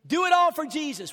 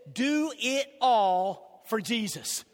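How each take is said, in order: First: Louder, higher repeat of "Do it all for Jesus"; slogan repeated, stronger. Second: Slow, deliberate slogan; slogan read slow. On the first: Pastor repeating the slogan to his church, louder. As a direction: repeat it with a push. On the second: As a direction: spell out the slogan slowly. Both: Shown as a demonstration. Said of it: "Our slogan is this".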